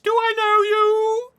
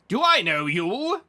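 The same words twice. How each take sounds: First: It is said in a put-on lady voice. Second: It is said in his normal voice.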